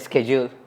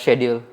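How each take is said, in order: First: It is pronounced in an American-style accent. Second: It is pronounced in the speaker's usual accent. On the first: It is adjusted so the listener finds it familiar. "if I have someone who's a foreigner or American or something, I'll say schedule" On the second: It is the speaker's normal way of saying it. "instead of schedule"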